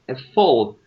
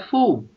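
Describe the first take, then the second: First: The vowel is short, like in full. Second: The vowel is long, like in fool. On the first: The speaker calls it right. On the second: The speaker calls it wrong. "Não é full"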